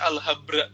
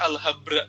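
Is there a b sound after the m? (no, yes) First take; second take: yes; yes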